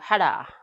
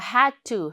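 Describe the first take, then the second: First: The words blur into one short word. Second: Both words are said separately and fully.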